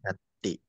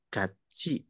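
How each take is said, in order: First: The middle consonant is a plain 't' sound. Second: The middle consonant is a 'ch' sound. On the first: The speaker calls it wrong. "bukan gati" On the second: The speaker calls it right. "huruf T ketemu dengan vokal I, maka dibacanya menjadi C ya"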